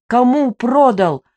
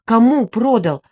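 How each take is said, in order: First: "Кому продал?" barked louder and slower; the narrator barking into the sleepy widow's ear. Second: A loud, pressing question; the narrator insisting, before she barks it; first demand. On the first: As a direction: bark it right into her ear. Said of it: "рявкнула я ей прямо в ухо". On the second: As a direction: demand the name firmly. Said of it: "рявкнула я". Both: A narrator's reading.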